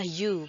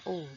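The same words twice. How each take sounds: First: It begins with a y glide before the vowel. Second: It begins directly with a plain vowel. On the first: The speaker calls it right. "pengucapannya adalah u" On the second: The speaker calls it wrong. "bukan u"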